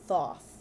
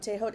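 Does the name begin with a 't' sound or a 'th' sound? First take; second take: th sound; t sound. First: The name is said as one syllable with 'th'. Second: The name is said with several syllables and 't'.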